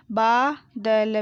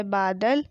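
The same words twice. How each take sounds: First: बादल drawn out as baa, da, la; very slow बादल, each letter held apart; spelled out. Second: Said in the usual way. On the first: Shown as a demonstration. Teacher sounding out बादल for pupils, syllable by syllable. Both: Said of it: "मैंने इस तरीके से पढ़ा".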